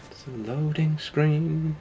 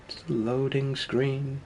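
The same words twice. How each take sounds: The two takes are said the same way.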